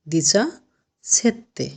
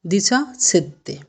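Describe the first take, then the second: First: দিচা, a pause, then সেত্তে on its own; split into parts. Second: Said in the usual way. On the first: Shown as a demonstration. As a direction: break দিচা সেত্তে into two clear chunks. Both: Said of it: "সতেরোটা কি উচ্চারণ হবে?".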